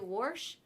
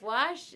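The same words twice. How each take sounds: First: Wash is said with a regional pronunciation. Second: Wash is said with a standard pronunciation. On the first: This is how a relative says it. "did you hear Mama say wash" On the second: This is how the family usually says it. "instead of wash"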